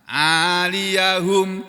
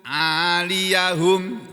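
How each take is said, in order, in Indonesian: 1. Ya memakai vokal a; akhirannya hum. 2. Ya memakai vokal a; akhirannya hum.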